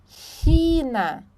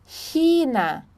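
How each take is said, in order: Both takes have the same delivery.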